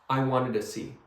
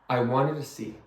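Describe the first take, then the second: No difference in how they are said.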